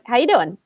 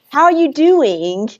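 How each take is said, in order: First: The words are squished together, 'are' nearly vanishing. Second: Every word is pronounced fully and separately. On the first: The speaker calls it right. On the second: The speaker calls it wrong.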